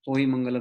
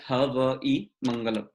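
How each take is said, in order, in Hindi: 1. पहला शब्द एक छोटा अक्षर है, hoi। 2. पहले शब्द में दो अक्षर हैं, ha-vai। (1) "होई मंगलम नहीं है" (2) "बट इट इज हवई मंगलम"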